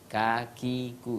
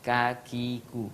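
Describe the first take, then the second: Both takes have the same delivery.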